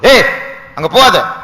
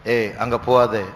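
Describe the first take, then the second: First: It is said loudly as a warning. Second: It is said calmly and quietly.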